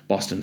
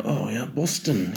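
First: Said in the usual way. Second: Slow, put-on British slang accent; imitated British accent. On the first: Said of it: "So I'd be saying that". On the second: Mimicking a friend's slang back at him, imitated British accent. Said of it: "when I imitate".

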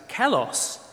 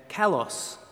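First: Kalos said as KA-los, Greek word read out clearly. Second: Kalos said with stress on the second syllable, ka-LOS. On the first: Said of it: "that's pronounced kalos". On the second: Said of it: "the emphasis is on the O". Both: Shown as a demonstration.

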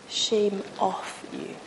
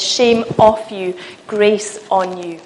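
First: Very soft, slow and drawn out; Jesus whispering. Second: Slow, firm declaration; Jesus's stronger voice. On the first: Answering the accuser's shame with grace, slow gentle whisper. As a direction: whisper it slowly, releasing someone from shame. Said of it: "Jesus comes and he whispers". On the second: Jesus declaring grace over a believer, slow and firm. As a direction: pronounce it slowly, with sure authority. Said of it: "his voice is louder". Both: Acted.

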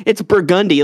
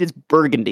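First: Burgundy with stress on the middle syllable, bur-GUN-dy. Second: Burgundy with the middle syllable unstressed, BUR-gun-dy; usual Burgundy stress. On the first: Correcting someone on the street name, Burgundy stressed bur-GUN-dy. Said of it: "if you say it like that". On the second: Telling someone to read the sign, Burgundy said BUR-gun-dy. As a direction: say Burgundy lower, leaning on the first syllable. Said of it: "Can't you fucking read?". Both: Retold or imitated.

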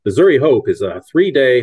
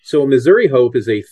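First: Punchy announcer opening. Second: Said in the usual way. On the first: Shown as a demonstration. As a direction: launch it like a promo. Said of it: "announcer voice". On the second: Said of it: "here's how we phrase it".

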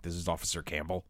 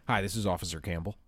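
First: A hint of a stern officer. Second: Said in the usual way. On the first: Retelling the caller's opening line, lightly stern officer. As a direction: lower and softer, mock stern officer. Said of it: "very stern". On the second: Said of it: "a woman's voice, very stern".

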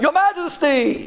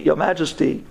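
First: High, raised call to the king. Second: Said in the usual way. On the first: Acted. Tongue calling out to the king, raised. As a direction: cry out for the king's attention. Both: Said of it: "the tongue screams out".

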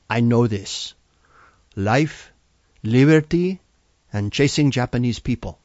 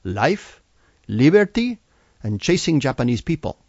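First: Put-on a light Salvadoran accent, "liberty" popping out louder. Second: Put-on proudly in a Salvadoran accent, "liberty" jumping high and loud. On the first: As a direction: confidently recite in a mild Salvadoran accent. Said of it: "in her strong Salvadoran accent". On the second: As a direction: recite it with pride in a Salvadoran accent. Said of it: "very proudly".

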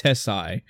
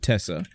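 First: "Tessai" with a final eye sound; "Tessai", last syllable rhyming with "sigh"; name ending in "eye". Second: "Tessa" with a short final ah; "Tessa", no eye sound at the end; Japanese-style name pronunciation. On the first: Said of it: "however you wanna pronounce it". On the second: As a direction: say "Tessa", ending in "ah". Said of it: "in Japan, they pronounce it". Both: Shown as a demonstration.

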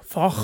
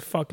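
First: Lightly imitated British "Fuck"; British-accented "Fuck", falling at the end; British woman's accent. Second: Said in the usual way. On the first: Shown as a demonstration. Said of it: "a woman says the word fuck, like". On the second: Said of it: "a woman says the word fuck".

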